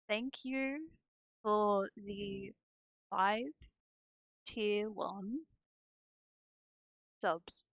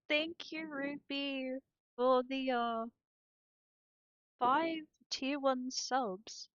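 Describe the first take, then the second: First: It is said slowly and deliberately. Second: It is said at a quicker pace.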